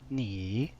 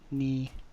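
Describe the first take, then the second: First: The pitch dips down then rises. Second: The pitch stays level and even. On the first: "Third tone down then up" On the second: "the even first tone"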